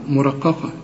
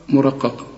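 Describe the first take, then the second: No difference in how they are said.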